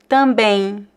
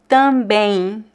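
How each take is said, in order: The two takes are said the same way.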